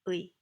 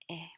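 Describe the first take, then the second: First: Two vowel sounds glide together into one. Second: A single plain 'e' vowel is said. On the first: "It's basically two vowels melded into one" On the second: "it gets reduced to something like 에"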